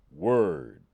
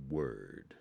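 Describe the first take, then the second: First: Loud, low "Word" with arms folded; mock-hip "Word", loud; cool guy "word". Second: Low, soft, laid-back "Word"; understated mock-hip "Word"; cool guy "word". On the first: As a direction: bark "Word" like a street-cool dude. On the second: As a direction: drop "Word" low and slow like a chill dude. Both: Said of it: "saying word out loud and folding my arms".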